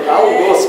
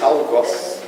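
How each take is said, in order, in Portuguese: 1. A vogal O é fechada. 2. A vogal O é aberta. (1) "cuja pronúncia do O deve ser fechada, como arroz" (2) "Eu sempre disse algoz"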